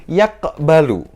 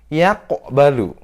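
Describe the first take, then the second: No difference in how they are said.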